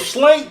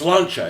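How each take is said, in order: First: The word ends abruptly with a hard 'k' sound. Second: The word ends with a soft 'cha' sound. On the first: The speaker calls it wrong. "It's not like, oh" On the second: The speaker calls it right. "That's how you say it"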